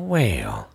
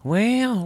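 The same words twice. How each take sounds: First: A low, stretched-out well; low answering well; low drawn-out well. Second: A high, stretched-out well; high showman's well; high drawn-out well. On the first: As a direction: drop the second well deep and long. Second well answers the first. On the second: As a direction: sing the first well up high and long. First of two drawn-out wells. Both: Acted.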